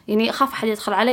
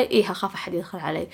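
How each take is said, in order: First: Quick question rising on "علي"; self-posed question. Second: Soft admission, weight on "إيه"; self-given answer. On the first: Answering listeners who wonder why, quick question rising on "علي". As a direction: ask it, lifting "علي" at the end. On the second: Admitting her fear to listeners, softly stressed "إيه". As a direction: confirm it quietly, leaning on "إيه" and dropping away. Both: Acted.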